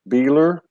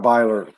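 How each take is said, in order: First: The first vowel sounds like 'ee'. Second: The first vowel sounds like 'eye'. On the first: The speaker calls it wrong. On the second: The speaker calls it right.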